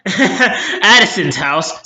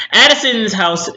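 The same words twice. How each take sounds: First: Addison's house said slowly through a laugh with a rising end; amused self-correction, Addison's house drawn out. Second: Said in the usual way. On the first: Real, not acted. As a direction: chuckle at your own slip while saying Addison's house. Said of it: "Sorry, she's so forgettable". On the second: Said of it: "Oh, I said Allison".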